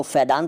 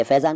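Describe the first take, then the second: First: फैदान with a d in the middle. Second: Said in the usual way. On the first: Shown as a demonstration. Teacher repeating the rejected form, फैदान with d for z. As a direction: swap z for d in फैदान. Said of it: "तो नहीं कहते". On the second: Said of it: "फैदान तो नहीं कहते".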